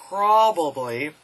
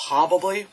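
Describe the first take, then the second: First: "probably" stretched slowly, every syllable crisp; over-enunciated. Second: Said in the usual way. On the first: Shown as a demonstration. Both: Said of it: "enunciation is always good".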